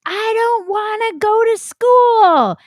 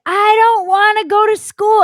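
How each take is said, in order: First: Put-on high, slow whiny kid voice; childish tantrum. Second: Put-on high, loud whiny kid wail; retold child's tantrum, louder; childish tantrum. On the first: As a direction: wail it like a six-year-old refusing school. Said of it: "I threw a tantrum". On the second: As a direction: whine it like a kid refusing school. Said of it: "you actually said those words?".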